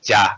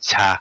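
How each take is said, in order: First: It starts with a hard voiced j sound. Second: It starts with a soft ch, said low. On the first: The speaker calls it wrong. "we never say ja" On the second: The speaker calls it right. "we say cha, cha, low and uh, soft"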